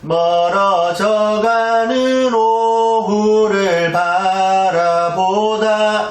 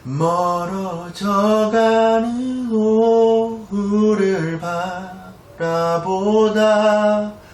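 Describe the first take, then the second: First: It is said with even, plain loudness. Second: It alternates strong and weak syllables throughout.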